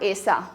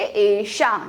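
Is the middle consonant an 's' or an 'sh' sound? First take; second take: s; sh. First: The middle consonant is a plain 's' sound. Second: The middle consonant is a retroflex 'sh' sound. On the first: The speaker calls it wrong. "Not ऐसा" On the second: The speaker calls it right. "सा का स बन जाता है मूर्धन्य श"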